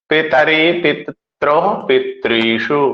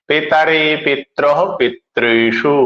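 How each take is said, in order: No difference in how they are said.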